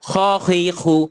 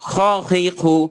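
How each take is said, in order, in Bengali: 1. kh ধ্বনিটি চাপা ও কর্কশ। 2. kh ধ্বনিটি চাপা ও কর্কশ।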